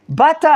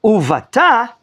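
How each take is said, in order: First: "bata" drawn out as BAA-ta; stress on first syllable. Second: "uvata" pitched up, u-va-TA; higher-pitched "uvata" with the last syllable stressed. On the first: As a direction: lean slowly on the "ba" of "bata". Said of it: "the word will be pronounced differently". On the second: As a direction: throw the accent onto the final "ta" of "uvata". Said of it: "But if I say in biblical Hebrew". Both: Shown as a demonstration.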